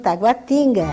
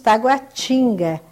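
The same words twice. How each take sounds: First: It is said in a Pernambuco accent. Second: It is said in the local accent.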